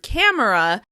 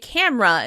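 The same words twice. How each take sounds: First: The word is said with three syllables. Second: The word is said with two syllables. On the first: "some people may pronounce this word camera" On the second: "most people say camera in order to say it a little more efficiently"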